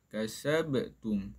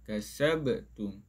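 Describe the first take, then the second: No difference in how they are said.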